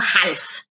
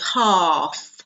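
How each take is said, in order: First: The vowel is short instead of long. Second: The vowel is long, with no L sound. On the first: The speaker calls it wrong. "not half" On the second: The speaker calls it right. "that means it's a long sound"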